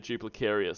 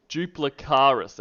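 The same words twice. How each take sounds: First: Duplicarius ending in KAIR-ee-us; mistaken pronunciation. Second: Duplicaris ending in KAR-iss; corrected pronunciation. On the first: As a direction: say Duplicarius with an extra 'ee' before -us. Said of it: "I keep saying it Duplicarius". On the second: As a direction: say Duplicaris with an 'ah' and no 'ee' before the final s. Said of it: "I was corrected. It's actually Duplicaris". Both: Shown as a demonstration.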